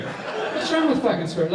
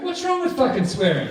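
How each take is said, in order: First: A laughing echo of the protest; laughing repeat. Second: High mock indignant protest; outraged player. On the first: Retold or imitated. Storyteller repeating the player's line, laughing. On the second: Player defending his swearing to staff, high mock outrage. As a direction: fire it back up high and offended.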